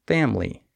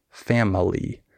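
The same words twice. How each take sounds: First: Family in two syllables, fam-lee; middle syllable skipped. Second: Family in three syllables, fam-uh-lee; middle syllable sounded. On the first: Teacher showing what we say, family with silent I. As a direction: leave out the I in family. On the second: Teacher showing what not to say, family with middle syllable sounded. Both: Shown as a demonstration. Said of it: "don't say the middle syllable".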